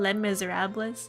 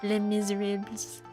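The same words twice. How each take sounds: First: The title is said with an English-sounding pronunciation. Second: The title is said with a French-sounding pronunciation.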